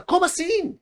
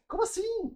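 First: Much higher, amused what-do-you-mean; a mock startled singer, laughing a bit; half-laughing surprise. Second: Very high, much softer, giggly what-do-you-mean; softer laughing surprise. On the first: [name] reacting to the odd request, high amused surprise. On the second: Retold or imitated. [name] reacting while laughing, very high and soft. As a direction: toss it off quietly, half laughing. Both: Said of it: "ela falou meio rindo assim".

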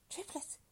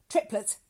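First: High, soft echo of surprise; startled woman. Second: Loud, punchy announcement; announcing doctor. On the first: Woman echoes doctor's birth news, softly startled. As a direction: repeat it lightly in a high woman's voice. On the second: Doctor breaks birth news to her, booming. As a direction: announce it boldly, with a falling tune. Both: Acted.

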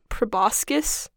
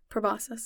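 First: "proboscis" with a k sound before the last syllable; hard-C pronunciation. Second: "proboscis" with only an s sound, no k; silent-C pronunciation. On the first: Co-host queries the word, "proboscis" said slowly with a hard k. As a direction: say "proboscis" as pro-BOS-kiss, questioning. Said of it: "you pronounce it proboscis". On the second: Host gives their own version, "proboscis" with a silent c. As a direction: say "proboscis" as pro-BOS-iss. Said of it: "never pronounced it with a C". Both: Shown as a demonstration.

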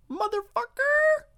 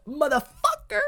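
First: Very high, slow, stretched squeal of the word; squeaky drawn-out greeting. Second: High, playful mock-tough greeting; cheeky high-pitched hello. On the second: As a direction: toss the word out high and cheeky. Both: Shown as a demonstration. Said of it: "I say motherfucker".

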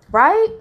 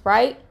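First: Louder, higher, sharply rising question; pointed check, pitch shooting up; insistent prompt. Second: Said in the usual way. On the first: Real, not acted. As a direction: press the listeners to agree. Repeats check after no reply.

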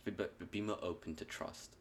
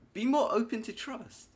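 First: Said in the usual way. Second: Much higher, louder cartoon squeak; squeaky silly voice. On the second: Echoes advice in a silly voice.

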